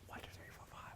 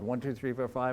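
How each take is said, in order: First: It is whispered without a full voice. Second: It is spoken aloud in a normal voice.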